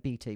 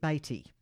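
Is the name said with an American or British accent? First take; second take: British; American. First: It is said with a British accent. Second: It is said with an American accent.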